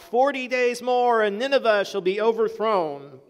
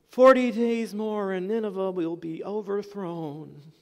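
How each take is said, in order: First: It is cried out with energy. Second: It is said flatly, without enthusiasm.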